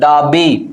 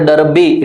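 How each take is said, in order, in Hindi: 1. पहला स्वर लंबे 'ah' जैसा लगता है। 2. पहला स्वर 'her' में 'er' जैसा लगता है। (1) "it is what? डाबी" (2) "it's not डरबी"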